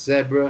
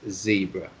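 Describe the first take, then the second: First: It is said in a British accent. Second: It is said in an American accent. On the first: "In British English, it's zebra" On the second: "and in American English, it's zebra"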